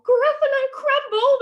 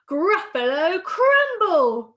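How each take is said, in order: First: Very high, loud panicked shriek; terrified Gruffalo. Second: Loud, slow, drawn-out threat; menacing mouse. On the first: Gruffalo echoes mouse before fleeing, terrified. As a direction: squawk it quickly in horror. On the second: Mouse threatens to eat the Gruffalo, menacing. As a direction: boom each word out slowly with raised pitch. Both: Acted.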